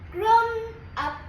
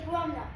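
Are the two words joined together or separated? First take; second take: separated; joined. First: The two words are said separately. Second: The two words are joined together. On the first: The speaker calls it wrong. "you don't say grown grown up" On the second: The speaker calls it right. "you say like it like it's go together"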